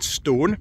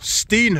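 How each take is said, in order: First: The word is said with an 'oh' vowel. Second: The word is said with an 'ee' vowel.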